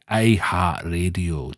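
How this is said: It is said in a put-on Scottish accent.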